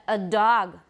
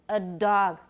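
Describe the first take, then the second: The two takes are said the same way.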